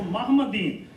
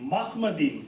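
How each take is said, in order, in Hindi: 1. 'h' ध्वनि कोमल और हल्की है। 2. 'h' ध्वनि कठोर और गले से निकली हुई है। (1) "Some people can't pronounce this one" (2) "the hard he"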